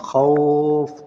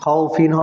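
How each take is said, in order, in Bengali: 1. শব্দটি দীর্ঘ স্বরের পরে f-তে থেমে যায়। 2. শব্দটি থামা ছাড়াই -fin দিয়ে শেষ হয়। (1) "এখানে টান হবে এক আলিফ, উচ্চারণ হবে তখন খাউফ" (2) "যদি অক্ফ না হয় তাহলে খাউফিন হবে"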